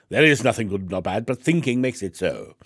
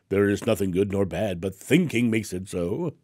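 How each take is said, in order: First: It is said in a put-on English accent. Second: It is said in the speaker's ordinary accent.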